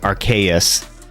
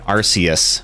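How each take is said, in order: First: It begins like the word 'arcane'. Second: It does not begin like 'arcane'. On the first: "Like it's uh like it's an arcane thing" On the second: "Until I heard people pronouncing it Arceus"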